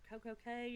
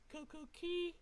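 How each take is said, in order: First: The second word rhymes with 'day'. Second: The second word rhymes with 'see'. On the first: "People pronounce it different ways" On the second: "People pronounce it different ways"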